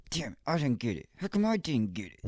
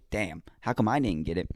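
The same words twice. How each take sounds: First: Higher whiny complaint over losing; upset complaint. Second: Said in the usual way. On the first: Retold or imitated. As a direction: whine about not winning the raffle. Retold losing the raffle.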